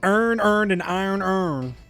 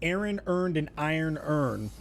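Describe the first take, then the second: First: It is said in a Baltimore accent. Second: It is said in a standard accent.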